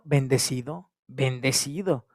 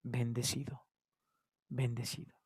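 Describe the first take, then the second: First: Said in the usual way. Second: Hesitant blessed. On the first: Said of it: "acts the easy reply in good times". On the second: Acted. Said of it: "por qué nos cuesta ... decir".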